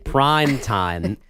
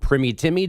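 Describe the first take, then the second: First: The two words are said separately and clearly. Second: The words are bunched together with misplaced stress. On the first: The speaker calls it right. "Sorry, prime time" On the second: The speaker calls it wrong. "it's all bunched together, but the emphasis in the wrong. Syllable"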